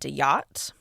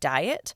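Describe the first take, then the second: First: The name is said with a 'dee-yat' sound. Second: The name sounds exactly like the word diet. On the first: "I would probably pronounce that Diyat" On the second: "insinuate it's pronounced like diet"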